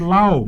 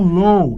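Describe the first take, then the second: First: The vowel glides like 'ow' in cow. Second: The vowel glides like 'oh' in go. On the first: "muita gente chega e fala assim, lau" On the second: "Ou então low. Low é baixo"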